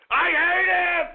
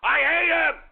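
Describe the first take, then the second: No difference in how they are said.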